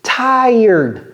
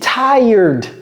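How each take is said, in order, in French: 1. Le mot se prononce à l'américaine. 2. Le mot se prononce à l'américaine.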